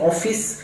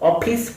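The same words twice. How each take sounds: First: The middle consonant is an f sound. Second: The middle consonant is an aspirated p sound. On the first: The speaker calls it right. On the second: The speaker calls it wrong.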